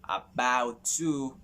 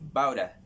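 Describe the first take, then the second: First: Each word is said fully and separately. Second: The words are run together into a contraction.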